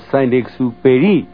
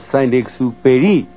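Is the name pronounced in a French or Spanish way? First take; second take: French; French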